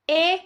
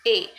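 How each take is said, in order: First: A as open "eh"; grave accent sound. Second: A as closed "ay"; closed é vowel for A; acute accent sound. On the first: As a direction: say A as French è. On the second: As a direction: say A as French é. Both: Shown as a demonstration. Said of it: "The change of accent".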